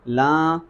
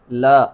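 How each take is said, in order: First: "لاں" with the vowel sent into the nose; "لاں" as a nasal long vowel; wrongly nasalised laam. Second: "لا" with a clean vowel, no nasality; "لا" as a pure open long vowel; pure oral laa. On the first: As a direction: show the mistake, nasalising "لاں". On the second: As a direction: keep "لا" out of the nose. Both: Shown as a demonstration. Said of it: "اس میں فرق ہے".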